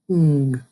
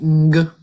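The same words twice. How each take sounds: First: The n and g blend into one sound. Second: The n and g are sounded separately. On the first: The speaker calls it right. "we just say ng" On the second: The speaker calls it wrong. "instead of saying ng"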